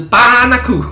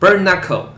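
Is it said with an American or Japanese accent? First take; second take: Japanese; American. First: It is said in Japanese-style English. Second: It is said in American English.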